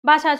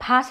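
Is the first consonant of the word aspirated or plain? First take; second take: plain; aspirated. First: The first consonant is said without aspiration. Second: The first consonant is said with strong aspiration. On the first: The speaker calls it wrong. "భాషని భాష అని పలకడం రాదు" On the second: The speaker calls it right. "ఒత్తుబట్టి భాష అని పలకలేకపోతున్నారు"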